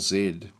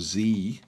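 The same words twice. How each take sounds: First: The letter is said the British way, zed. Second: The letter is said the American way, zee.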